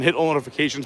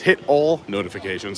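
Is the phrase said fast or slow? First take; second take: fast; slow. First: The phrase is spoken quickly. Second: The phrase is spoken slowly. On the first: The speaker calls it wrong. "I said that fast" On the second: The speaker calls it right. "I have to slow down when I talk"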